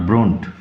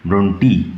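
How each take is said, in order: First: The name ends with a 't' consonant sound. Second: The name ends with an 'ee' vowel sound. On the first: The speaker calls it wrong. "Not ব্রন্ট" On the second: The speaker calls it right. "উচ্চারণ লক্ষ্য করো, ব্রন্টি"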